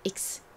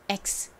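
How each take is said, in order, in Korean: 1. 모음은 ee로 발음해서 iks가 됩니다. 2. 모음은 eh로 발음해서 eks가 됩니다. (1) "이가 이 소리가 나고 X가 기역 받침의 스 소리가 나서" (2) "이가 에 소리가 나고 X가 기역 받침의 스 소리가 나서"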